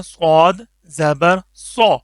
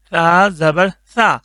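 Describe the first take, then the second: First: سو said heavy and full; heavy سو sound; heavy saad. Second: سا said light and thin, slowly; slow, thin سا with a light tongue; light سا, drawn out. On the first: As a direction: fill the mouth on سو. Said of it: "یہ موٹا کر کے". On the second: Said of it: "اس کو پتلا کر کے". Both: Shown as a demonstration.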